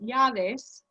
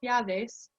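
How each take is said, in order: First: The double L is pronounced with a y sound. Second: The double L is pronounced with a y sound.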